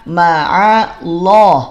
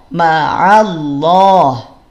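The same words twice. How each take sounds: The two takes are said the same way.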